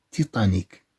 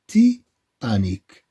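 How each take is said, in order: First: Said in the usual way. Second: "تيتانيك" broken after "تي"; split into syllables. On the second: Shown as a demonstration. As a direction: say "تي", pause, then "تانيك". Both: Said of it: "عندنا هنا تي، هنا عندنا تا".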